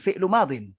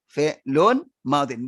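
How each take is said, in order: First: The first word ends without an n sound. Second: The first word ends with an added n sound. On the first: The speaker calls it wrong. "bukan fi'lu madin" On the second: The speaker calls it right.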